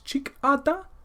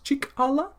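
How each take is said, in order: First: The middle consonant is a d sound. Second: The middle consonant is an l sound. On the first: This is the Dakota dialect form. "in Dakota it's" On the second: This is the Lakota dialect form. "in Lakota is"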